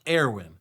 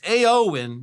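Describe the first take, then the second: First: The name starts with an 'air' sound. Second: The name starts with an 'ay' sound. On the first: The speaker calls it wrong. "not Airwin" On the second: The speaker calls it right. "so it's Aowen"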